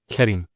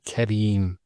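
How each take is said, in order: First: The second vowel is short. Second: The second vowel is long. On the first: The speaker calls it wrong. "not Karim" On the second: The speaker calls it right. "followed by the ya"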